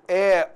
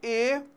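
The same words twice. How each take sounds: First: The vowel is pronounced open, with a low tongue. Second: The vowel is pronounced closed, with a higher tongue. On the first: "o timbre aberto" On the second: "o timbre fechado"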